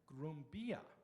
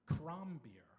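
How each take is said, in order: First: It is said in the East Pfälzisch dialect. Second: It is said in Swabian, starting with K.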